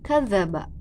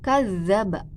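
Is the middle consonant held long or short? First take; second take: short; long. First: The middle consonant is single and short. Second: The middle consonant is doubled and held long. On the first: It means to lie. The speaker calls it wrong. "tidak ditasydidkan, jadi dibacanya kadzaba" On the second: It means to call someone a liar. The speaker calls it right. "yang seharusnya kadzaba. ada tasydid gitu di eh, huruf za"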